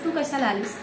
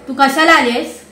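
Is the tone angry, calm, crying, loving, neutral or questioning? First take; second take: neutral; angry. First: It is said in a neutral, normal tone. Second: It is said in an angry tone.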